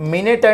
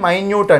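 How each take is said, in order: First: It is said as min-it, with a short first vowel. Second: It is said as my-newt, with a long first vowel. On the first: A unit of time. "దీని meaning ఏమో time" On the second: Very small. "మైన్యూట్ అంటే చిన్న చిన్న, small"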